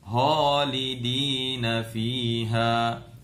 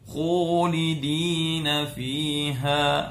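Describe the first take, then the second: First: The first consonant is pushed too far back, throaty. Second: The first consonant has over-rounded, pushed-out lips. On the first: "tempatnya sem pindah... bunyinya holidina fiha... tidak tepat" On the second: "bibirnya terlalu monyong... terlalu berlebihan"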